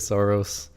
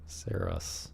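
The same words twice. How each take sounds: First: The word does not rhyme with 'hair loss'. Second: The word rhymes with 'hair loss'. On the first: This is how most people say it. "Everyone is saying Saros, so I'm gonna say Saros" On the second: This is the official pronunciation. "I will not be pronouncing it this way. ... like rhymes with hair loss"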